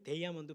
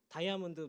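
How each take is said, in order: First: It starts with an American-style 'dei' sound. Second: It starts with a plain Korean-style 'da' sound.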